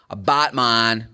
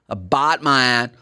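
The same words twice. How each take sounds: The two takes are said the same way.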